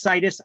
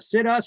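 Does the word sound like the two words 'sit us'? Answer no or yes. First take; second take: no; yes. First: It does not sound like 'sit us'. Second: It sounds like the two words 'sit us'. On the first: The speaker calls it right. "the word is pronounced situs" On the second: The speaker calls it wrong. "I mispronounce words so I can remember what they mean"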